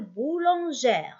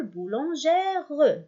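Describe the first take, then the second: First: بولونجير with the last E left mute; silent final E. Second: بولونجير ending in a sounded "-reu"; wrongly voiced final E. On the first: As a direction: say بولونجير ending on the R. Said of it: "أي لا ننطقه". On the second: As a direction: say بولونجير with an extra "ruh" at the end. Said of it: "لا نقول". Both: Shown as a demonstration.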